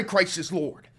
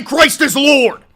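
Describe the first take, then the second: First: Said in the usual way. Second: Slow, high, very loud preacher yell; hammed-up Bible-thumper scream; mock zealot bellow. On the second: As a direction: roar it like a furious street preacher. Mocking religious commenters.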